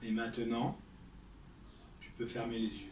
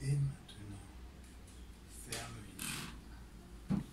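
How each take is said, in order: First: It is said loudly. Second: It is said softly and low.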